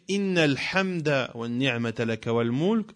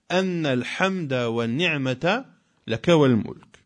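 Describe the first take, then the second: First: The first word begins with an 'i' vowel. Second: The first word begins with an 'a' vowel. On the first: Praise belongs to God, stated in general. "avec le kasr, la kasra, cela est meilleur et plus général" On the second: The answer to God is given because of His praise. "si l'on dit anna alhamda"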